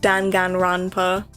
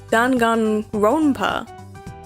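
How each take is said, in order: First: The O in 'ronpa' is not a clear O. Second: The O in 'ronpa' is a clear O. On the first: The speaker calls it wrong. "Danganronpa is not how to pronounce that" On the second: The speaker calls it right. "then the O has to be an O"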